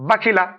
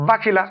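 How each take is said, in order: Both takes have the same delivery.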